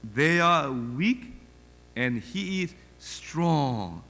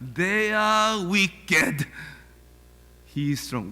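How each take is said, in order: First: The words 'weak and' are said as two clear words. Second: The words 'weak and' merge into one word, 'wicked'. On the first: The speaker calls it right. "Little ones to him belong" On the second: The speaker calls it wrong. "발음 아니고 they are wicked"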